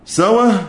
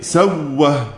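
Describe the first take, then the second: First: The middle consonant is single, with no glottal stop. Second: The middle consonant is doubled by merging. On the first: The hamza's vowel moves to the letter before it. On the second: The hamza becomes a letter merged into the one before it.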